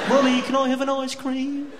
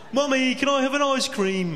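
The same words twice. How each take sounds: First: Put-on high, louder child voice, far off laughing; whiny kid asking. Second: Put-on high child's plea, louder, laughing through it; whiny kid asking. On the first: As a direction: whinge for an ice cream. Kid voice repeated in story. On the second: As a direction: beg mum for an ice cream like a little kid. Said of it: "It's that accent again".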